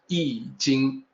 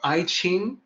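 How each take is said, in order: First: The second syllable begins with a soft j sound. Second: The second syllable begins with a ch sound. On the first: The speaker calls it right. "is supposed to sound exactly like the original, which is Yi Jing" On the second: The speaker calls it wrong. "Those are both mistaken pronunciations"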